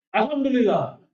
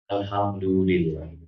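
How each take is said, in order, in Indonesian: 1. Diucapkan dengan nada marah. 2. Diucapkan dengan nada tenang. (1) "saya emosi sama Jaya"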